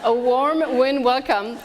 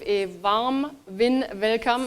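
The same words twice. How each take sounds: First: It is spoken in an American accent. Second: It is spoken in a non-American accent.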